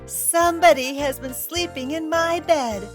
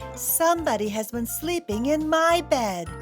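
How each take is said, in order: First: A loud, shrill, little voice is used. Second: A medium-sized, grumbling voice is used.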